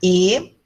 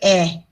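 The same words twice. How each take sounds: First: The vowel sounds like the E in elefante. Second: The vowel sounds like the E in Érica. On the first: "Eu posso pronunciar E, elefante" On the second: "eu posso dizer E, Érica"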